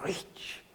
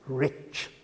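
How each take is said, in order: First: It ends with a softer sound, no 't'. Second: It ends with a sharp 'tch' sound.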